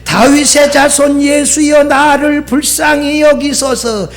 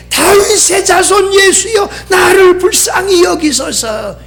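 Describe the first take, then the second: First: Higher, moderately raised plea; measured call for mercy; retold crying out. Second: High, wailing retold plea; high-pitched cry for mercy; crying out harder. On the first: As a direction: imitate a beggar's cry without full volume. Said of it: "뭐라고 소리쳐요?". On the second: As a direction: imitate a beggar calling all the more insistently. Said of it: "더 크게".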